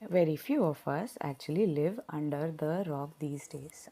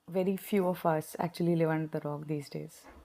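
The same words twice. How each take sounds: First: The sentence is spoken slowly, with every word clear. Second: The sentence is spoken quickly, with words swallowed. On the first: The speaker calls it right. "I will say that very slowly" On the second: The speaker calls it wrong. "I think I ate half of my words earlier"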